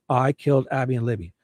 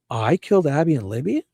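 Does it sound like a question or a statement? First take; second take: statement; question. First: It sounds like a flat statement. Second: It sounds like a doubtful question.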